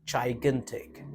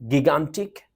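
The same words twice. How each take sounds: First: "gigantic" slowly, as jai-GAN-tik; slow, softer model of "gigantic", first syllable like "chai"; correct pronunciation. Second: "gigantic" with hard g's and a short i; mispronounced by spelling. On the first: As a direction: start "gigantic" with a soft j and long i. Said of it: "The real pronunciation of the word is". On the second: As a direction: say "gigantic" as gig-AN-tik. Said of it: "It's wrong to pronounce gigantic". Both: Shown as a demonstration.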